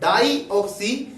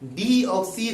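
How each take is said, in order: First: The first syllable is said as 'die'. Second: The first syllable is said as 'dee'. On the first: It would mean containing two oxygens. The speaker calls it wrong. "वो बता रहे थे DNA का जो full form होता है वो डाई ऑक्सी" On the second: It means lacking oxygen. The speaker calls it right. "DNA का फुल फॉर्म क्या होता है? डी ऑक्सी"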